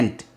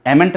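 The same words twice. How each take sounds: First: Ain't in one syllable, "ent"; short form. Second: Amn't in two syllables, "em-ent"; wrong pronunciation. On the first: English teacher giving the contraction, one-syllable ain't. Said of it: "short में बोलते हैं ain't". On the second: English teacher rejecting a form, two-syllable amn't. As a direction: say amn't wrongly with an extra vowel. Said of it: "amn't नहीं होता". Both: Shown as a demonstration.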